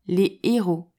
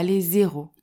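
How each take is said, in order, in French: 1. Aucun son de liaison n'est prononcé avant le deuxième mot. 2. Un son de liaison z est prononcé avant le deuxième mot. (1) "Tu diras" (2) "et pas"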